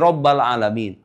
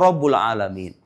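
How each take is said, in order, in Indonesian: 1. Kata Rabb diakhiri dengan vokal a. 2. Kata Rabb diakhiri dengan vokal u. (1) "Tapi menurut kaidah ilmu nahu itu salah" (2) "Tapi menurut kaidah ilmu nahu itu salah"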